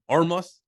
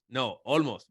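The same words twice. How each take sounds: First: Olmos said as Ormos with an R, pitched up as a question; L turned to R. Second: Olmos said firmly with a clear L; correcting teammates on how to say Olmos; correcting his name. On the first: Retold or imitated. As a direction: imitate a teammate asking Olmos as Ormos. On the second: Shown as a demonstration. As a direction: correct them by leaning on the L in Olmos. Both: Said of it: "'Cause they can't say the L".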